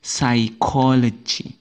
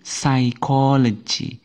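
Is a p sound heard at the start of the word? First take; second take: no; no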